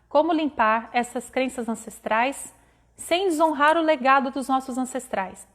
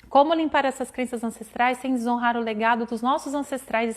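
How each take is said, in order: First: The question is read more slowly. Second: The question is read at normal speed.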